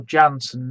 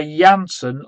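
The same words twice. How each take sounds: First: Janssen said with a hard English J, like JAN-sən; J pronunciation. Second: Janssen said with an initial Y, like YAN-sən; Y pronunciation. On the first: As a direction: start Janssen with the J of "jam". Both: Shown as a demonstration. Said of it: "Not sure if it's Janssen or Janssen".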